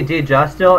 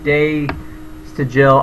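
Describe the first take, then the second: First: The name sounds like 'Deja Still'. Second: The name sounds like 'Day to Jill'. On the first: "I always say Deja Still. It's not" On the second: "It's like Day to Jill"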